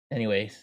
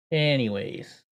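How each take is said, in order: First: Breathless anyways. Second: Said in the usual way. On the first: Real, not acted.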